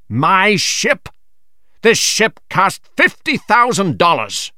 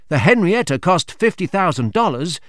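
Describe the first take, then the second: First: Slow, louder gruff-voiced captain; captain insisting his ship is worth a fortune; indignant captain. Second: Said in the usual way. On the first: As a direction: lean on the price, offended. Captain protests the ship's price.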